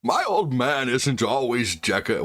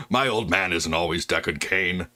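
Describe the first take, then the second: First: Slow, lightly voiced old man; drawn-out old sage reading. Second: Said in the usual way. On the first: Streamer reading chat as an old man, slow. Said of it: "I could do other old men". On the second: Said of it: "well, hold on".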